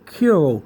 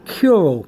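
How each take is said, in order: First: The first syllable sounds like 'koo'. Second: The same.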